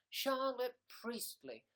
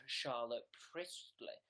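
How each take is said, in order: First: Higher, slow, savouring each syllable; savoured name. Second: Said in the usual way. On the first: Acted. Savouring a viewer's name she loves, slow and high. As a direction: relish the name. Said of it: "I love that name".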